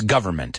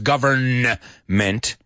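First: The n sound is dropped and merged into m. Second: The n sound is clearly pronounced before m. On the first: The speaker calls it right. "La N y la M se mezclan ahí" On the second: The speaker calls it wrong. "No es government"

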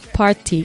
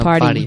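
First: It is said with a British accent. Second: It is said with an American accent.

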